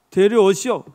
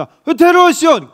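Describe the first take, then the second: First: Said in the usual way. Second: Loud, high order: bring him here; commanding call. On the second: Acted. Samuel demands the youngest son. (큰 소리로 높게 명령하듯)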